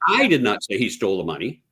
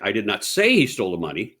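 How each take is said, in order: First: The stress is on the word I. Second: The stress is on the word say.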